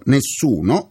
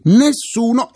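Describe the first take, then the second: First: "nessuno" ribadito grave e deciso; accento su nessuno. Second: "nessuno" gridato acuto e forte; enfasi su nessuno. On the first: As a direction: calca "nessuno" con tono basso e fermo. ("nessuno" ripetuto con peso) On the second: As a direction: scandisci "nessuno" alzando molto la voce. ("nessuno" urlato con forza) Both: Real, not acted. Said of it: "e dico nessuno".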